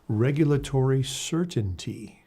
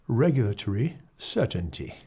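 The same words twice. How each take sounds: First: It is said in a non-British accent. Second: It is said in a British accent.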